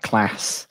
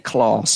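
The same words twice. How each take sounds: First: The A vowel is short and flat. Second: The A vowel is long and open.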